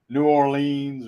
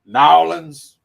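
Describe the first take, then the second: First: The name is said in its full general form. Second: The name is squeezed into a short local form. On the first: This is how outsiders say it. The speaker calls it wrong. "not New Orleans or whatever" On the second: This is how people from Louisiana say it. The speaker calls it right. "If you're from Louisiana, that's how you say it"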